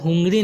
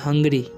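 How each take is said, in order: First: The first vowel sounds like 'oo'. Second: The first vowel sounds like 'uh'. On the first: The speaker calls it wrong. "इसे हुंगरी नहीं पढ़ना है" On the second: The speaker calls it right. "क्योंकि यू का उच्चारण यहाँ पर अ हो रहा है"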